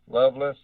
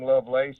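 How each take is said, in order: First: The last syllable sounds like 'less'. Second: The last syllable sounds like 'lace'. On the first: "Some people say Loveless" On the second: "It is actually Lovelace"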